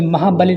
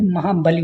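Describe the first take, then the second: First: महाबली with a short final i; wrong short vowel. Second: महाबली with a long final ee; correct long vowel. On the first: Teacher shows students the mistake, short final vowel. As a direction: cut the end of महाबली to a brief li. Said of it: "नहीं". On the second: Teacher corrects students, long final vowel. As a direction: draw out lee in महाबली. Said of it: "बड़ी की मात्रा". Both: Shown as a demonstration.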